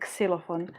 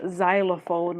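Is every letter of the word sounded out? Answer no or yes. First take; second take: yes; no. First: Every letter of the word is sounded out. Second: Not every letter of the word is sounded. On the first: The speaker calls it right. "you literally pronounce every single word, e- every single le- letter in the word" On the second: The speaker calls it wrong. "not xylophone"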